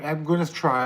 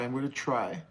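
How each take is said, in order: First: Said in the usual way. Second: "I'm gonna try" fading much softer, muttered; softer, to himself. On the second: Real, not acted. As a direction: let "I'm gonna try" trail off quietly to yourself.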